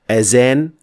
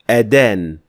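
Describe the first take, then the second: First: The middle consonant is a z sound. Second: The middle consonant is a d sound. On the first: It means to decorate. "azan with za" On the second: It means to condemn. "adan with da"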